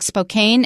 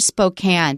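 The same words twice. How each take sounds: First: It is said the way the spelling suggests. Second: It is said the way locals say it. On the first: The speaker calls it wrong. "it looks like Spokane, and I bet a lot of people say it that way" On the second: The speaker calls it right. "Watch out for Spokane"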